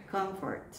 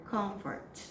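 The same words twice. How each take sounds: The two takes are said the same way.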